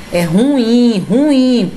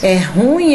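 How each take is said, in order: First: "ruim" stressed on IM, higher pitch; correct stress demo. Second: "ruim" with stress on RU; wrongly stressed "ruim", RU leaned on; mispronounced ruim. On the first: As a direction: say "ruim" as ru-ÍM, emphatically. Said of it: "Presta atenção". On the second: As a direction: say "ruim" as RÚ-im, one falling-off beat. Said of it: "colocava assim na música". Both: Shown as a demonstration.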